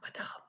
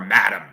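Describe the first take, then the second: First: It is said in a fancy, foreign-sounding way. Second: It is said in a plain American way. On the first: This is the real, proper pronunciation. "You have to say Madame. It's fancy. Now that's that's that's the real pronunciation too" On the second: The speaker chooses the everyday American form. "I'm an American. I'm calling her Madam"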